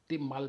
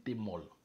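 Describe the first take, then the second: First: The name ends with a 'mal' sound. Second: The name ends with a 'molle' sound. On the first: "Vous allez me dire qu'on ne prononce pas comme ça" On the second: "On dit t'es molle"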